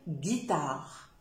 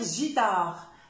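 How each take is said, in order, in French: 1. Le mot commence par un son g dur. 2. Le mot commence par un son zh doux. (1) "si je mets le U, je vais dire guitare" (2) "si j'enlève le U, je vais dire gitare"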